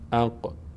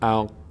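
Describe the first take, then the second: First: The final q ends with a slight vibrating echo. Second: The final q stops flat without any bounce. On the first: The speaker calls it right. "مقداری در مخرج گویی صدا میلرزه" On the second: The speaker calls it wrong. "نمیگیم"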